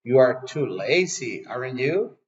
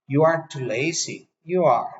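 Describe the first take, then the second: First: AREN'T YOU lifted as a tag question. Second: YOU ARE added as an affirmation, not a question; statement tag. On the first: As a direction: slowly state it, then ask AREN'T YOU. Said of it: "si la usáramos en otra forma". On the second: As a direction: confirm it firmly with a falling YOU ARE. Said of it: "sino con una afirmación". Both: Shown as a demonstration.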